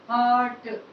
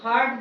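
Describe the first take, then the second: First: No R sound is pronounced in the word. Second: An R sound is pronounced in the word. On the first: The speaker calls it right. "इसमें आर का sound नहीं आता है" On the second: The speaker calls it wrong. "कुछ लोग हार्ट बोलते हैं"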